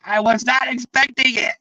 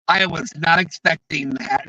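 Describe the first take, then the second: First: Retold shout. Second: Said in the usual way. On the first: Stunned panelist after an unexpected reply, shouting in surprise. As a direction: burst out the words in a shout. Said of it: "And he was like". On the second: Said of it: "He was just like".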